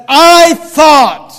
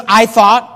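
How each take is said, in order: First: "I thought" punched loud and high, both words drawn out; stress on I THOUGHT. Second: Said in the usual way. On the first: Shown as a demonstration. Preacher pointing listeners to Naaman's words, emphatic "I thought". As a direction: hit "I thought" hard, each word held. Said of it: "Notice these words". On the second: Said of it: "You know what that means when he says".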